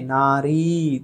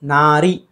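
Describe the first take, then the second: First: नारी with drawn-out ee; long final vowel. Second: नारी with short final i; wrong short ending. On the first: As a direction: stretch the री of नारी. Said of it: "दीर्घ होना चाहिए". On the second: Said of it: "नारी नहीं". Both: Shown as a demonstration.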